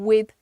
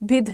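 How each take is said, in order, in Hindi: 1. शब्द एक सामान्य 'd' ध्वनि से समाप्त होता है। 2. शब्द एक महाप्राण 'dh' ध्वनि से समाप्त होता है। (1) "तो बोलिए ना कॉट अप विद वर्क" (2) "विध नहीं है वो"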